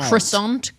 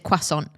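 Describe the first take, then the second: First: Croissant is said phonetically, in an English way. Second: Croissant is said close to the French pronunciation. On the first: "U S tends to pronounce it more phonetically" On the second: "we in in the U K tend to pronounce French words closer to"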